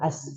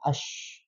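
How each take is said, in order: First: It ends with a narrow hissing s sound. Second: It ends with a spread-out sh sound. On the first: The speaker calls it wrong. "Jangan as" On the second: The speaker calls it right. "tapi disebarkan ash"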